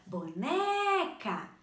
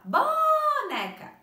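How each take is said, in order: First: "boneca" called as bo-NEEE-ca; calling out "boneca" with a long, strong second syllable; calling, stress on NE. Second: "boneca" shouted as BOOO-neca; very loud, high, drawn-out first syllable in "boneca"; calling with wrong stress. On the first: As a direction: stretch and push the middle NE of "boneca". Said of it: "Perceberam que o né, a prof pronunciou com mais tempo". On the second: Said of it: "a gente não ia falar assim?". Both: Shown as a demonstration.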